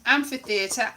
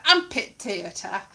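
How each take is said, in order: First: Said in the usual way. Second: "amphitheatre" with p and t for ph and th; teacher's pronunciation. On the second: Retold or imitated. Imitating the Latin teacher, "amphitheatre" as am-pit-e-a-ter. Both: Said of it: "Although he did pronounce".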